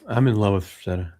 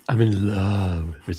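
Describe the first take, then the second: First: It is said in his own normal voice. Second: It is said imitating David's voice.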